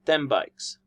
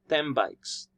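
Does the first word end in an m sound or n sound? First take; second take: m sound; m sound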